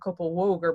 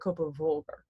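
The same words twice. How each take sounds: First: The sound before 'ogur' is a W. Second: The sound before 'ogur' is a V. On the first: The speaker calls it wrong. "Not Kopavogur" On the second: The speaker calls it right. "V, believe it or not, is actually a V sound"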